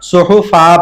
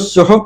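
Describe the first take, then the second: First: The word ends with a lengthened a vowel. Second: The word ends abruptly on the final consonant. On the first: The speaker calls it right. "एक अलिफ की मिकदार खींच के पढ़ेंगे" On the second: The speaker calls it wrong. "अमूमन बच्चे इसमें भी गलती करते हैं"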